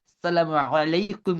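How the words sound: The greeting is said with exaggerated Arabic-style sounds. The speaker calls it wrong. "ওই অ্যারাবিক করতে গিয়ে আমরা বলি"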